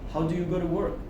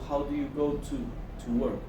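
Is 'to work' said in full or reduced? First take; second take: reduced; full. First: The word 'to' is reduced and linked. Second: Each word of 'to work' is said in full. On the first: The speaker calls it right. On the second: The speaker calls it wrong. "no se pronunciaría tanto"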